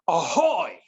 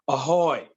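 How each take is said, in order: First: It is said loudly, with great energy. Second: It is said flatly, without much energy.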